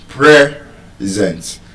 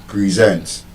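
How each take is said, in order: First: The stress is on the first syllable. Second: The stress is on the second syllable. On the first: It is used as a noun. "As a noun, the stress is on the first syllable" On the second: It is used as a verb. "and then on the second syllable, zent"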